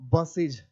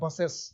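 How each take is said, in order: First: The ending is pronounced like 'iz'. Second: The ending is pronounced like 'es'. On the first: This is how English people say it. "अंग्रेज को पढ़ेंगे" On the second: This is how we say it. "हम लोग पढ़ते हैं बसेज या बसेस"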